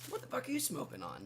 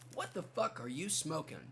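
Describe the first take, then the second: First: It is said in a friendly, casual tone. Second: It is said in a hostile, confrontational tone. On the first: The asker is just curious what the listener smokes. "Like a very cordial thing" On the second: The asker is attacking the listener's idea. "the way I read it also sort of intoned the hostility"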